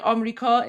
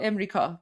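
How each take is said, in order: First: "Amrika" opening on AH; three-syllable "Amrika" with open first vowel; Iranian pronunciation. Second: "Imrika" opening on a short IM, lower; three-syllable "Imrika" with front first vowel; Iranian pronunciation. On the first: Streamer giving both Iranian variants, AH-first "Amrika". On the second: Streamer giving both Iranian variants, IM-first "Imrika". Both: Shown as a demonstration. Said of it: "that's the Iranian way".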